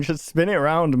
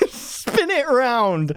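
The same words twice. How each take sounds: First: Said in the usual way. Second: Slow, higher mock echo of the woman; stretched-out, amused imitation; mimicking the clip. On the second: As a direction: draw out the quote in a raised voice. Mimics the line just played.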